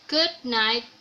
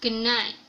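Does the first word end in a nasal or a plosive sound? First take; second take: plosive; nasal. First: The first word ends in a plosive stop. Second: The first word ends in a nasal sound. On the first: The speaker calls it wrong. "so it is not good night" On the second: The speaker calls it right. "The plosive t becomes nasal n, but it's good night"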